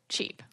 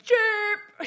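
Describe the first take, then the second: First: The word is said at a normal, flat volume. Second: The word is shouted loudly. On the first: The speaker calls it wrong. "But we don't say it like that" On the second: The speaker calls it right. "somebody will just like shout it"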